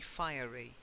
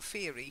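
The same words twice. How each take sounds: First: The first part sounds like the word fire. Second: The first part does not sound like fire. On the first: The speaker calls it right. "because it's fire" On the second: The speaker calls it wrong. "not fiery"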